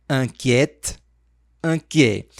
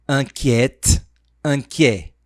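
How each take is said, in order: No difference in how they are said.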